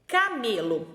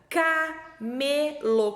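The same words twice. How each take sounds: First: Said in the usual way. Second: "camelo" split slowly into ca, me, lo; very slow "ca-me-lo" with gaps; syllable by syllable. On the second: Shown as a demonstration. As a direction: sound out "camelo" in three long beats. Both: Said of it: "Qual que é o primeiro sonzinho que eu falo?".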